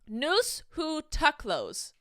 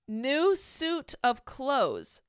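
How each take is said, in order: First: The stress falls on unexpected syllables, sounding garbled. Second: The stress falls naturally, making the words clear. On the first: The phrase is disguised so it is hard to recognize. The speaker calls it wrong. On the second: The phrase is said as it is actually meant. The speaker calls it right.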